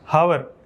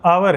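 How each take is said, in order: First: The word begins with an h sound. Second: The word begins directly with a vowel. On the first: The speaker calls it wrong. "हावर बोलता था मैं" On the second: The speaker calls it right. "वो आवर है"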